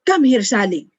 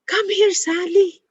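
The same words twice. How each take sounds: First: It sounds harsh and angry. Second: It sounds lively and excited. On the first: "And then angry" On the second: "in an excited uh, uh, tone"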